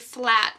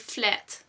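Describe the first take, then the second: First: The vowel is said the English way. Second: The vowel is a Dutch-style 'eh' sound. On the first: The speaker calls it wrong. "We don't say flat, ... we don't really pronounce the A like you do" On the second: The speaker calls it right. "but we say flat"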